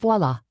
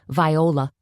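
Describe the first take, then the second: First: It is said the usual way, vwah-lah. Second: It is said like the name vie-oh-la.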